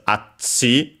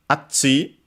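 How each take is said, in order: First: Said in the usual way. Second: Atsi with a high pitch jump on tsi; accent on the last syllable. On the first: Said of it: "as Atsi". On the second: Shown as a demonstration. Showing students the accent of Atsi. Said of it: "is actually accented on the last syllable".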